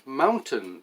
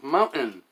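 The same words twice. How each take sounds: First: The middle T is clearly pronounced. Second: The middle T is dropped. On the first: The speaker calls it right. "Or the word mountain" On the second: The speaker calls it wrong. "becomes mountain. That's not right"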